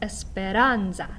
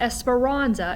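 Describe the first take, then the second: First: The R is a quick flipped tap. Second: The R is a plain English R sound. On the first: The speaker calls it right. "We're going to use that flipped R" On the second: The speaker calls it wrong. "it's not esperanza"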